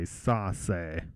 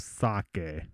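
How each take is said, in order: First: The middle consonant is an S sound. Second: The middle consonant is a K sound. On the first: The speaker calls it wrong. "it would say sase" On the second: The speaker calls it right. "the C makes a K sound in the original verb"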